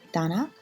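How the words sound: The word begins with a voiced D sound. This is the Eastern Armenian form. "the letter D in Eastern Armenian"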